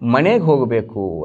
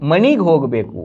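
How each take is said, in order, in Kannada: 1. ಮೊದಲ ಪದ ಎ ಧ್ವನಿಯಲ್ಲಿ ಕೊನೆಗೊಳ್ಳುತ್ತದೆ. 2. ಮೊದಲ ಪದ ಇ ಧ್ವನಿಯಲ್ಲಿ ಕೊನೆಗೊಳ್ಳುತ್ತದೆ. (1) "ಅಂಥೇಳಿ ಕರೆಯಲ್ಲ" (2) "ಅಂತ ಕರಿತೀವಿ"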